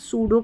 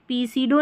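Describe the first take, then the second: First: The word starts without a P sound. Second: The word starts with a P sound. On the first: The speaker calls it right. "सूडो करके पढ़ेंगे" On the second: The speaker calls it wrong. "पी सीडो नहीं बोलेंगे"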